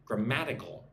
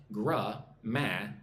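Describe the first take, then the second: First: "Grammatical" as one word, stressed on the second syllable. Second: "Grammatical" slowly broken into four separate syllables. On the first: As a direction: lean on the MAT in "Grammatical". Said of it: "the emphasis on the second syllable". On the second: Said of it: "Look at the word grammatical". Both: Shown as a demonstration.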